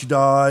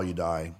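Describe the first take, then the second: First: Die punched high and loud; emphatic. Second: Said in the usual way. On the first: Shown as a demonstration. Joking about work-life balance, loud punchline on die. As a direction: hit die hard, higher and louder. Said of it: "if you work too much". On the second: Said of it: "If you don't work at all".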